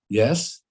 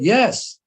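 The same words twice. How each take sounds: First: It is said with moderate emphasis. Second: It is said with strong emphasis.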